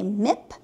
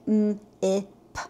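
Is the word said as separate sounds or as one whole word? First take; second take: whole word; separate sounds. First: The sounds are blended into one smooth word. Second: The sounds are said one by one with breaks. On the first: The student reads the whole word at once. "Some students will right away say mip" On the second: The student gives each sound on its own. "some will say m-i-p"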